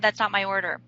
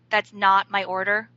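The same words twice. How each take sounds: First: It is said in a calm, neutral tone. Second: It is said in an irritated, judgmental tone. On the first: The mistake is simply corrected. "A neutral tone would sound something like" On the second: The waiter is judged as clueless. "I'm going to have an attitude about my waiter's mistake"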